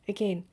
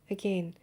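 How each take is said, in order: Both takes have the same delivery.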